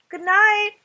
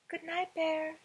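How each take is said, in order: First: It is said louder. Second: It is said softly.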